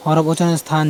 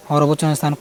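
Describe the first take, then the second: No difference in how they are said.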